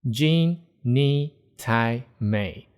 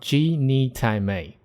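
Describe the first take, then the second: First: The first syllable ends with a nasal sound. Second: The first syllable ends without a nasal sound. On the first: "the second way to pronounce it" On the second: "Different from"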